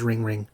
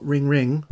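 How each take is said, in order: First: Phone ringtone. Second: Sung-out ringtone "Ring, ring"; imitated ringtone. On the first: Retold or imitated. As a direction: copy the phone's own ring call. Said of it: "when it rings, it says". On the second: Imitating his phone's ringtone, light sing-song. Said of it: "it says, "Ring, ring".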